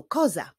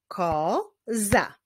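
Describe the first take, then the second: First: Said in the usual way. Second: "Koza" as ko, pause, za; syllable by syllable. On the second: Shown as a demonstration. Teacher clapping with pupils, "Koza" split into syllables. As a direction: say "Koza" in two drawn-out, separate beats. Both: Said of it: "wyklaszczmy sylaby w tych wyrazach".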